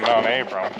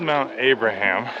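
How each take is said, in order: First: The name is said in a shortened form. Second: The name is said in full, as spelled. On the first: This is how local people say it. "the locals all pronounce it Mount Abram" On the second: This is how the name is written. "It's spelled Mount Abraham"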